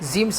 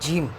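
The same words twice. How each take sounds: First: The first sound is not an English j. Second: The first sound is an English j. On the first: The speaker calls it wrong. "जीम सही नहीं है" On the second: The speaker calls it right. "जे जैसे बोलते हैं ना, वैसे ही जीम पढ़ेंगे हम"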